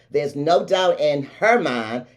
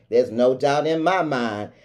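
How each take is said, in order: First: Slow line leaning on HER; stress on HER. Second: Slow line leaning on MY; MY answering as the contrast; stress on MY. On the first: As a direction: put the weight on HER in "her mind". Contrasts her mind with own. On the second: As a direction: put the weight on MY in "my mind". Contrasts own mind with hers. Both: Real, not acted.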